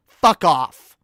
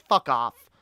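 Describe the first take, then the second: First: Louder, final fuck off; louder repeat. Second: Said in the usual way. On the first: Real, not acted. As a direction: slam it down the second time.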